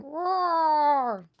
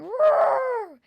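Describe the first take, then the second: First: Higher, louder playful lion roar. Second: Much higher, much louder full roar; big lion roar. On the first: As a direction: roar it out for the child. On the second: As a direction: let the lion really bellow. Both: A narrator's reading. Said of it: "Leonard started roaring".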